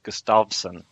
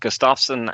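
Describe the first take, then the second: First: The middle consonant sounds like a v. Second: The middle consonant sounds like an f. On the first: The speaker calls it right. "should be pronounced Gustavsson" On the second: The speaker calls it wrong. "which I've been doing incorrectly apparently"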